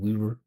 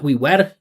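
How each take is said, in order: First: The two words blur into one continuous vibration. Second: The two words are said separately and distinctly. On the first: The speaker calls it right. "Just this vibration" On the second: The speaker calls it wrong. "not we were"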